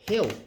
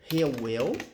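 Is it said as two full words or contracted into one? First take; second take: contracted; two words. First: It is contracted into a single short syllable. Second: It is said as two full separate words.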